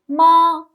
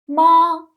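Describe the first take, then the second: First: The pitch stays high and level. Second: The pitch stays high and level.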